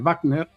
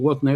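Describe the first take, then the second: First: The name is pronounced the German way. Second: The name is pronounced the English way. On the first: The speaker calls it right. "en vez de Wagner, que era alemán" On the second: The speaker calls it wrong. "la gente tiende a pronunciar los nombres como si fueran ingleses"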